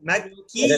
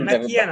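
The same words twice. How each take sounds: First: The k sound is pushed and held doubled. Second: The k sound is short and unpushed. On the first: The speaker calls it right. "ধাক্কা দিয়ে কিয়া" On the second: The speaker calls it wrong. "ভাই মাক্কিয়া না"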